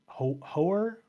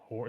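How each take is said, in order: First: Hoare tried as two syllables, HO-er, higher and questioning; "Hoare" as a tentative HO-er with rising pitch; unsure pronunciation. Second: Hoare tried as one syllable, like "hor", much softer; "Hoare" as a quiet, one-syllable second guess; alternative pronunciation. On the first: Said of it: "looks like it's spelled Hoare". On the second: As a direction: say "Hoare" softly as one beat, rhyming with "more". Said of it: "Or Ho-, Hoare?". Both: Shown as a demonstration.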